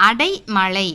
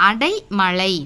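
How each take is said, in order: The two takes are said the same way.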